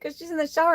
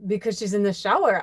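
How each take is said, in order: First: Higher, lightly put-on Belgian accent; a half-hearted try at a Belgian friend's accent; quick Belgian accent imitation, pitched up; attempted Belgian accent. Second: Said in the usual way. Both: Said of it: "I can't do her accent".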